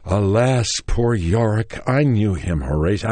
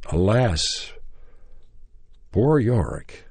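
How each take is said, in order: First: Louder, continuous theatrical recitation; concentrated declaiming. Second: Measured theatrical lines with long gaps; halting recitation. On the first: Actor with book as skull at his audition, concentrated declaiming. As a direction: push through the line with more force, lightly acted. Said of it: "I got concentrated with my book". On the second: Nervous actor starting his audition speech, halting recitation. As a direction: declaim it word by word, pausing as if unsure. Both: Retold or imitated.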